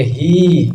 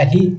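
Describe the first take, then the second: First: ही with the i held long and pressed. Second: ही with a short i, said quick and light. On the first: Teacher showing students a long vowel, drawn out. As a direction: stretch the i in ही, giving it weight. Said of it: "दीर्घ ई वाला बोलेंगे". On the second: Teacher showing students a short vowel, clipped. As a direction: say ही short, without stretching the i. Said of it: "direct बोलिएगा ही". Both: Shown as a demonstration.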